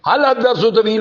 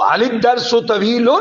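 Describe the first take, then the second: First: Hal ends in a bare consonant before dars. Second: Hal takes an added i vowel before dars. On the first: "आम आदमी जो न्यूली है... वो जैसे पढ़ दे हल दर्स तवील, तो तब भी ठीक है" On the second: "मुतहर्रिक करना पड़ जाए, तो जेर से करते हैं"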